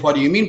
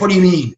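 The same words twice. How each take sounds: First: It is asked in a calm, curious tone. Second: It is asked in a sharp, confrontational tone.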